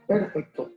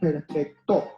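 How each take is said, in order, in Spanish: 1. La fuerza está en la primera sílaba. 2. La fuerza está en la última sílaba. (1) "Si pongo la mayor fuerza en la primera sílaba" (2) "Y la última sílaba sonará"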